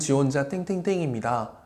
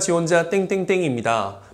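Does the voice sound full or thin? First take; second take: thin; full. First: A thin, weak voice comes from the throat. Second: A full voice is supported by breath from the belly. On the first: The speaker seems to lack energy for hard work. The speaker calls it wrong. "목에서 ... 이거는 별로예요. 제가 너무 예쁘게 힘이 없어 보이고" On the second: The speaker seems trustworthy and carries the message better. The speaker calls it right. "호흡을 해서 이렇게 좀 배로 소리를 내는"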